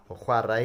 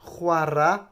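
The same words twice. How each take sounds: First: "chwarae" with a full final "-ai", said as "chwa-rai"; careful posh "chwarae" ending in "-rai"; "chwarae" pronounced in full, the posh way. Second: Said in the usual way. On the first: Shown as a demonstration. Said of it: "if you're being posh". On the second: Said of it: "or chwarae if you're being posh".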